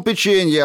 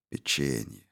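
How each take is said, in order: First: High, loud, outraged word; angry shouting. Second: Печенье said low and soft, falling; quiet echo. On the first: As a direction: spit out печенье loud and high. Eddy shouting in a quarrel. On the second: Reed's inner echo of word. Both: A narrator's reading.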